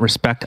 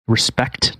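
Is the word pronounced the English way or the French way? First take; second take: French; English. First: It is pronounced the way French speakers say it. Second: It is pronounced the plain English way. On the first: The speaker calls it wrong. "not respect. I'm not French" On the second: The speaker calls it right. "Respect, not respect"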